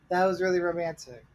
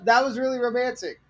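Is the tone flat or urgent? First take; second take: flat; urgent. First: The line is said in a flat, monotone voice. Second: The line is said in an urgent, lively voice. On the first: The speaker shows no feeling. The speaker calls it wrong. "she said it like super flat and monotone" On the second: The speaker wants him to come back. The speaker calls it right. "there needs to be a little more urgency in your fucking inflection"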